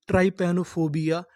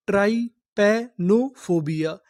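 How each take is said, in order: First: Said in the usual way. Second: "ट्राइपैनोफोबिया" slowly, split into separate chunks; syllable by syllable. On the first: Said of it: "पूरी meaning क्या बनी". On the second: Shown as a demonstration. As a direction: sound out "ट्राइपैनोफोबिया" piece by piece. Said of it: "तोड़-तोड़ के पढ़ते हैं". ("ट्राइपैनोफोबिया" को धीरे-धीरे टुकड़ों में तोड़कर पढ़ें)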